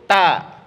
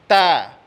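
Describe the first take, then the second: First: The t has only a light puff of breath. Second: The t has only a light puff of breath.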